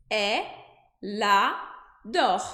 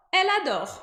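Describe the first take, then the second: First: Elle adore broken into e, la, dor; split syllables. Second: Elle adore linked smoothly, L onto the A; linked French. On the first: Teacher slows elle adore into syllables. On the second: Teacher models the linked Elle adore. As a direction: say Elle adore as one flowing word. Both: Shown as a demonstration. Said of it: "eu vou dizer".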